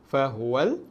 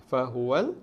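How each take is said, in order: Both takes have the same delivery.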